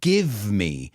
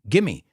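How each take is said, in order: First: The V sound is clearly pronounced. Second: The V sound is dropped entirely. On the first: "the pronunciation of give me" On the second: "we don't pronounce that V. We say gimme"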